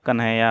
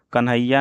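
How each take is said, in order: First: कन्हैया said as kanhai-ya; open ai vowel. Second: कन्हैया said as kanhaiyya, short vowel; doubled y. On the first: Teacher correcting the name, कन्हैया with full ai. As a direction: hold the ai in कन्हैया, single y. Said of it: "कन्हैया होता है". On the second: Teacher showing the mistake, कन्हैया with doubled y. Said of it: "कन्हैया नहीं होता है". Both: Shown as a demonstration.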